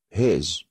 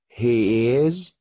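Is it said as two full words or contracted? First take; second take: contracted; two words. First: It is said as one contracted syllable. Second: It is said as two full words.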